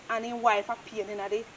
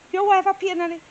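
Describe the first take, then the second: First: Said in the usual way. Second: Higher, louder mocking echo of his words. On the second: Worker echoing the old man's complaint, mocking. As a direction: throw his words back at him. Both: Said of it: "So me say".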